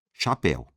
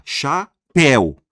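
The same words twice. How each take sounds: First: Said in the usual way. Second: "chapéu" split in two slow, loud syllables. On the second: Shown as a demonstration. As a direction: stretch CHA, then push PÉU louder in "chapéu". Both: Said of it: "Uma, duas sílabas".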